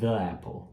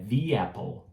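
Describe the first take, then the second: First: The article has a short, weak 'uh' vowel. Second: The article has a long 'ee' vowel. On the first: The speaker calls it wrong. "a gente não fala the apple" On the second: The speaker calls it right. "É the apple"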